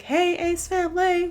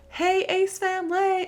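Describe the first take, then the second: First: High bubbly intro greeting; mock YouTuber hello; imitating vlog intro. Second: High sing-song vlogger hello, a bit slow; playful repeat of the intro; vlog intro greeting. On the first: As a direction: chirp it like a vlogger greeting fans. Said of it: "Catherine's like". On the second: Retold or imitated. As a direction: relish saying the catchphrase. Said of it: "so addictive to say".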